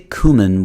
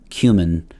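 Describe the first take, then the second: First: The first syllable sounds like coo. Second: The first syllable sounds like cue. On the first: This is the common North American way. "if you say cumin, why don't you say coot uh, for cute?" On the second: This is the way used elsewhere in the English-speaking world. "You say cute. So um, I go with cumin"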